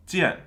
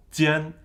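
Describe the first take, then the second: First: "jian" starting high and dropping fast; falling tone. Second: "jian" held high and level. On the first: Teacher contrasting words that differ by tone, falling tone. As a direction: let "jian" fall sharply in pitch. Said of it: "is a different word from". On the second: Teacher contrasting words that differ by tone, high tone. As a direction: say "jian" on one high, steady note. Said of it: "when a different tone is there". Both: Shown as a demonstration.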